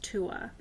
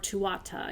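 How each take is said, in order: First: The word ends after 'Tua' with no extra syllable. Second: The word ends with a 'ta' syllable. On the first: "but it's pronounced Tua" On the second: "you'll hear that too"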